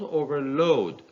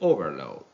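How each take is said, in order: First: The stress is on the last syllable. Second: The stress is on the first syllable. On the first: The word is used as a verb. "the two-syllable word plays the role of a verb, so the second part is stressed" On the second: The word is used as a noun. "the two-syllable word plays the role of a noun. Therefore, the first syllable is stressed"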